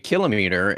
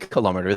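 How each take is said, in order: First: It is said the way non-Americans say it. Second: It is said the way Americans say it. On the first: This is how the rest of the world says it. The speaker calls it right. "everywhere else on the entire planet, and they all say kilometer" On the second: This marks the speaker as an outsider abroad. The speaker calls it wrong. "when you say kilometer, they look at you funny"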